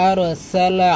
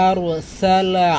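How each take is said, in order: Both takes have the same delivery.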